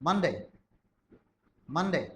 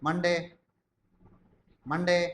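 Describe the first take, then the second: Both takes have the same delivery.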